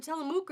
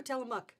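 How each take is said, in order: First: Tillamook ending in a long "mook", like spook; alternative pronunciation. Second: Tillamook ending in a short "muck", like luck; preferred pronunciation. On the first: Host asks viewers how the town is said, Tillamook with long oo. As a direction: say Tillamook with an oo in the last syllable. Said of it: "Is it Tillamook or Tillamook?". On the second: Host offers her usual version, Tillamook ending like "muck". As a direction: say Tillamook with an uh in the last syllable. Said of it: "I always think Tillamook". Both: Shown as a demonstration.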